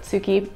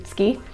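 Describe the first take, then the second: First: The word is said in an Australian accent. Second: The word is said the Japanese way. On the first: "tsuki is more comfortable in my Australian accent" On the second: "the Japanese pronunciation is actually closer to tsuki"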